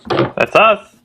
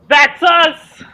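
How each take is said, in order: First: It is said flatly, with little energy. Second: It is said with lots of energy.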